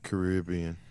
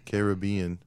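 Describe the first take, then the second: First: Caribbean stressed on RIB, ka-RIB-ee-un; second-syllable stress. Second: Caribbean as care-uh-BEE-un; stress on BE. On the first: Speaker tests ways to say the word, stress on RIB. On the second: Speaker tests the other way to say it, care-uh-BEE-un. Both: Shown as a demonstration. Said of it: "what's the correct way to say that".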